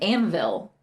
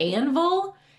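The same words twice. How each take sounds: First: The second vowel sounds like the 'i' in Advil. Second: The second vowel sounds like a 'u' sound. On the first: "like Advil, but an N" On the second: "one is more like a U sound"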